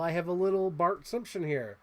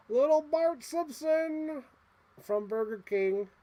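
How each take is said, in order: First: Said in the usual way. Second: Much higher, slow, cooing toy voice; cutesy voice. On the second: Acted. Collector to a tiny toy figure, cooing high and slow. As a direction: croon his name like a cute little thing.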